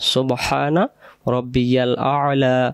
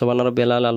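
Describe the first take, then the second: First: A glottal break separates the final word's syllables. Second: The words run together with no glottal break. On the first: The speaker calls it right. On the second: The speaker calls it wrong.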